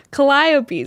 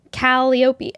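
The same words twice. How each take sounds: First: Calliope said kuh-LIE-uh-pee, loud and high; corrected pronunciation. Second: Calliope said KAL-ee-oh-pee; wrong pronunciation. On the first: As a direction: stress the second syllable of Calliope, LIE. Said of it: "emphasis on the second syllable". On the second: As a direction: stress the first syllable of Calliope, ee after the l. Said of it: "am I saying it wrong". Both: Shown as a demonstration.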